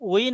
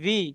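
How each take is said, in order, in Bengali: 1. সিলেবলটি w ধ্বনি দিয়ে শুরু হয়। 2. সিলেবলটি v ধ্বনি দিয়ে শুরু হয়। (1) "উ- উই না" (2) "ভি ভি"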